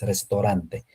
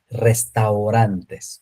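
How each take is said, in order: First: The 'au' is said as a single 'o' sound. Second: The 'au' is said as a gliding 'a-u' sound. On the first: The speaker calls it wrong. "no como el francés" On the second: The speaker calls it right. "Esta se pronuncia au"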